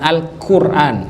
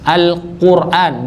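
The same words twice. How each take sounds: First: The consonant is a plain front K sound. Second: The consonant is a deep, thick back Q sound. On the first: The speaker calls it wrong. "bukan Al-Quran" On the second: The speaker calls it right. "Yang tidak dikahkan"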